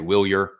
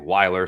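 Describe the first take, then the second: First: The name is said like 'Wheelier'. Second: The name is said like 'Weiler'. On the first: "if you look at M L B's pronunciation, it is Wheelier" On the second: "Some will say Weiler"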